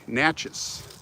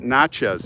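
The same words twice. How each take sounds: First: The name rhymes with matches. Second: The name does not rhyme with matches. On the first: The speaker calls it right. "It's Natchez. Like matches" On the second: The speaker calls it wrong. "it's not Natchez actually"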